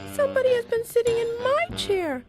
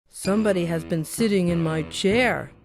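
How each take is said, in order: First: It is said in a small, little voice. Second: It is said in a big, gruff voice.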